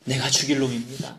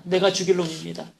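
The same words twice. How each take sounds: First: Retold sob. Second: '내가 죽일 놈입니다' repeated higher, mild mock wailing; imitated wail. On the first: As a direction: imitate a prisoner's confession, understated. ('죽일'을 낮고 조용히 흐느끼듯) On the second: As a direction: raise the plea on '내가', lightly crying. ('내가'를 높여 울부짖듯 흉내) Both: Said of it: "엉엉 울기 시작을 하더랍니다".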